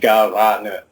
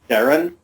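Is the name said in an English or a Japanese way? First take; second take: Japanese; English. First: The name is said with Japanese-style vowels. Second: The name is said with English-style vowels. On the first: "if you were pronouncing it in Japanese"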